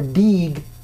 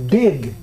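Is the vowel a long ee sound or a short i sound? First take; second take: long ee; short i. First: The vowel is a long ee sound. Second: The vowel is a short i sound. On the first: The speaker calls it wrong. "They're not an E sound, so it's not pig or beeg or deeg" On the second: The speaker calls it right. "It's pig, dig"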